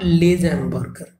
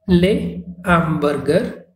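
First: A z sound links into the noun. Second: The s is silent, with no z linking. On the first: The speaker calls it wrong. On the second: The speaker calls it right. "a liaison is not formed"

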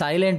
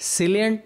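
First: The first vowel is an eye sound. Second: The first vowel is a short i sound. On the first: The speaker calls it right. "બોલીએ" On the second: The speaker calls it wrong. "નથી"

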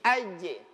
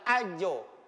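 First: The final bounce sounds like a short 'e'. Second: The final bounce sounds like a short 'o'. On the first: The speaker calls it right. "Jadi aje" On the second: The speaker calls it wrong. "Bukan ajo"

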